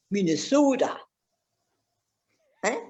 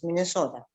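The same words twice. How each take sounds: First: Hammed-up Minnesota vowels; mock Minnesota accent. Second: Said in the usual way. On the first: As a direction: playfully put on a Minnesotan accent. Repeats state name in local accent.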